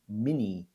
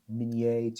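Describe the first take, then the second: First: The name is pronounced the Americanized way. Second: The name is pronounced the original French way. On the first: This is how people in the United States changed it. The speaker calls it wrong. "to Mini" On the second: This is the original pronunciation of the name. The speaker calls it right. "we butchered the pronunciation from uh, Minié"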